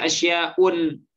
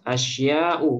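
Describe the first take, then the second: First: The word ends with an added n sound. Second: The word ends on a plain vowel, no n. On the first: The speaker calls it wrong. "Boleh nggak kita baca asya'un? ... Tidak boleh" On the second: The speaker calls it right. "Nggak boleh tanwin"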